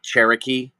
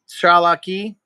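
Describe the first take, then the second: First: The name has an r sound in the middle. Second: The name has an l sound in the middle. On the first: The speaker calls it wrong. "It's not Cherokee" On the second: The speaker calls it right. "that's actually how you say Cherokee"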